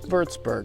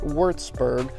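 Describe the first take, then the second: First: It begins with a V sound. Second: It begins with an English W sound. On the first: The speaker calls it right. "W's sound like V's" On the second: The speaker calls it wrong. "not Würzburg"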